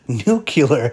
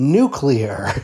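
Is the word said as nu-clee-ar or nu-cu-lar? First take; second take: nu-cu-lar; nu-clee-ar. First: The word ends with cu-lar after nu. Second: The word ends with clee-ar after nu. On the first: The speaker calls it wrong. "not nuclear" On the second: The speaker calls it right.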